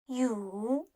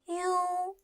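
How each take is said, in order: First: The pitch dips low and then rises. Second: The pitch stays high and level.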